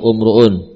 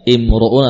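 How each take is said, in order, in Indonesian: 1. Kata itu dimulai dengan vokal u. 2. Kata itu dimulai dengan vokal i. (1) "I atau U?" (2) "I atau U? ... Di kasrah, karena ini isim"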